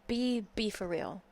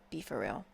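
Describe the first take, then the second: First: Said in the usual way. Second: Low, dismissive. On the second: Real, not acted. To [name]'s fan, a deep mocking "Be for real".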